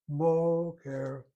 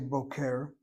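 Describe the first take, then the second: First: The stress is on the first syllable. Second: The stress is on the second syllable. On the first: The speaker calls it right. "The emphasis in this case of the two syllables is over that first syllable" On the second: The speaker calls it wrong. "We don't say boker"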